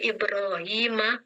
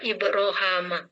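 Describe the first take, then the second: First: The vowel before the 'm' is 'i'. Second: The vowel before the 'm' is 'a'. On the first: This is the common reading. "Ibrahimah dibaca" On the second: This is the reading of this reciter's tradition. "dibaca Ibrohama"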